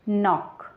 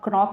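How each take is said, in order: First: The word starts with an N sound. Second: The word starts with a K sound. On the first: The speaker calls it right. "इसको हम पढ़ेंगे नॉक" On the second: The speaker calls it wrong. "इसको हम क्रॉक नहीं पढ़ेंगे"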